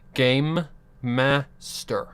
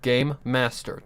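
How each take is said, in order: First: The two words are said separately and clearly. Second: The two words run together into one word.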